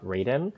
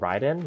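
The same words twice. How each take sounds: First: The name is said with an English pronunciation. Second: The name is said with a Japanese pronunciation. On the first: "for like Western pronunciation" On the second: "the Japanese pronunciation will be Raiden"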